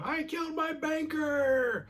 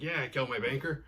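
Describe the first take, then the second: First: Really loud yell, very high and drawn out; Sam. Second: Said in the usual way. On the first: Retold or imitated. Voice in Marty's ear blurts his crime, yelling really loud. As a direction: stretch it into a high, strained scream. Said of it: "Sam yells really loud". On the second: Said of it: "so he just confesses".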